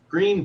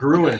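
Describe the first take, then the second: First: The name is said as one syllable, 'green'. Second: The name is said as two syllables, 'grew-en'. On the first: The speaker calls it right. "the German English version of green" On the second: The speaker calls it wrong. "pronouncing the names of towns and places as they were spelled"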